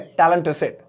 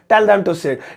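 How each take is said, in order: First: 'Tell them' blends into one quick word, 'tellem'. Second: 'Tell' and 'them' are said as separate, full words.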